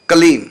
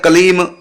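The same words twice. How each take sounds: First: The final m is held with lips closed. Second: The final m is released with lips opening. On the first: The speaker calls it right. "मतलब होठ बंद ही रहे" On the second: The speaker calls it wrong. "ये अशुद्ध हो गया, क्योंकि हमने होठ खोल दिए।"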